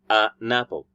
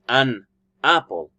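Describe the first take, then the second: First: The n sound joins onto the next word. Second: The two words are said separately. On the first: "linked to the next word to sound an apple" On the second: "Instead of saying an apple"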